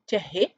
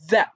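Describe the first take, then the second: First: The word is sounded out letter by letter in two syllables. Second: The word is said as a single short syllable. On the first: The speaker calls it wrong. "No. It is not read, we cannot read it like this" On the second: The speaker calls it right. "This word is the"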